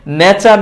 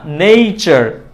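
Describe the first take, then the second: First: নেচার as "ne-char"; plain e in নেচার, no glide; wrong pronunciation. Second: নেচার as "nei-char"; correct pronunciation. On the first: Teacher rejecting the mistake, নেচার with plain e. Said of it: "না". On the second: Teacher correcting learners, নেচার with ei. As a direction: add an i glide after e in নেচার. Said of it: "নেচার না". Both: Shown as a demonstration.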